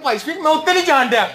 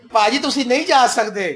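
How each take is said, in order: First: Raised-pitch Punjabi plea, playfully imitated; mock Punjabi plea. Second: Said in the usual way. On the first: Believers mocked while begging to be let off, in playful Punjabi. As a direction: lightly mimic a villager's Punjabi complaint. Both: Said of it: "کہہ رہے ہوں گے".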